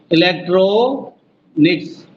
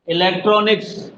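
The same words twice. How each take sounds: First: electronics slowly, with a gap before "mix"; syllable by syllable. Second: Said in the usual way. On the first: Shown as a demonstration. Teacher counting syllables for students, electronics slow and split. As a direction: draw out "ट्रो" in electronics, pause, then finish. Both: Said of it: "पांच बार कौन सा बोलेगा".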